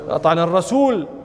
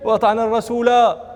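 First: The last word ends without a vowel. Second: The last word ends with a long vowel. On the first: This is the regular pausal form. "القياس أن يقال" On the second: The ending matches the verse endings. "لرعاية الفواصل"

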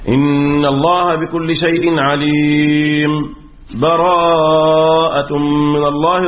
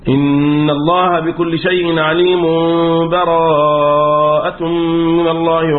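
First: There is a brief silent stop without a breath. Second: The two verses run together with no break. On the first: "طيب السكت،" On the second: "والوصل"

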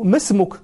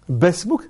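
First: The phrase begins with an m sound. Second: The phrase begins with a b sound. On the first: It is said in the standard form. "يقول له ما اسمك؟" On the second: It is said in the tribe's dialect to be friendly. "باسمك أبدل الميم باء"

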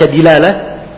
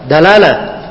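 First: The first vowel is an 'i' sound. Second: The first vowel is an 'a' sound. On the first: "bisa juga dibaca dilalah"

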